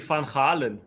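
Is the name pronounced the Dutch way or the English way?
Dutch. The name is said with a Dutch pronunciation.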